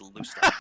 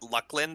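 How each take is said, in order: First: The C is said as a soft S sound. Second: The C is said as a hard K sound. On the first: The speaker calls it right. "It is Lucilin. Soft S, soft C" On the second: The speaker calls it wrong. "other people pronounce l- it Luclin, by the way. That is incorrect"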